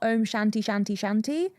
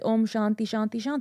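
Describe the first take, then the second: First: Shanti is said with an anglicized pronunciation. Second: Shanti is said with a Sanskrit-style pronunciation. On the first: The speaker calls it wrong. "it's not" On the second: The speaker calls it right.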